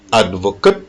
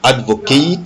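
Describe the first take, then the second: First: Advocate with short "ket" ending; noun pronunciation. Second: Advocate with long "kate" ending; verb pronunciation. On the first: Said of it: "si c'est un nom". (advocate en nom, finale brève « ket ») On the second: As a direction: say advocate as the verb, final vowel gliding like late. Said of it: "si c'est un verbe". (advocate en verbe, finale longue « keït ») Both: Shown as a demonstration.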